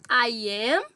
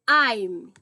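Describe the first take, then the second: First: Both words are said fully and separately. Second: The two words merge into one syllable. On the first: "Em vez de ficar I am" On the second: "a gente fala I'm"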